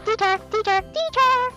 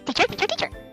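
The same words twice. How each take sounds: First: It is said loudly. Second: It is said quickly.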